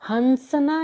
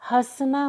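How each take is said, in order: First: A full n sound follows the first vowel. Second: The first vowel is nasalized through the nose. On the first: The speaker calls it wrong. "हंसना नहीं होता" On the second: The speaker calls it right. "हंसना होता है। तो वहां पर चंद्र बिंदु का ही प्रयोग होता है।"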